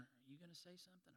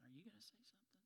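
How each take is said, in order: First: Much softer muttered nudge; murmured aside. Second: Much softer whispered nudge. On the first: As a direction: murmur it to your neighbour. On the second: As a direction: whisper it so Jesus won't hear. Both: Acted. Disciples nudging each other.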